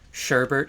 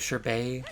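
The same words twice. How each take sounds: First: An R sound comes before the final T. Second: No R sound comes before the final T. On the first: "plenty of people like will still say like sherbet" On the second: "which is quote unquote the correct way to say it"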